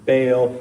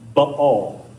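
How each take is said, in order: First: It is said the usual modern American way. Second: It is said closer to the ancient pronunciation. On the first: It is the common form used in the United States. "here in the U S, we usually pronounce it Baal" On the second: It matches how the name was said long ago. "a little more accurate to the way they would have said it back then"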